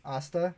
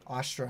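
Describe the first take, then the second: First: Asta with no R, rising as a question; pronounced without R. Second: Astra with an R after the T; pronounced with an R. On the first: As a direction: query Asta, ending in plain "-ta". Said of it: "Why is there an R in there?". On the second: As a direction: say Astra ending in "-tra". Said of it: "Is that how you pronounce that?". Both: Real, not acted.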